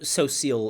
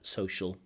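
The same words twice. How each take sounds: First: The middle consonant is an s sound. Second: The middle consonant is an sh sound. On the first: "So social is okay" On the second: "the more accepted pronunciation with a sh"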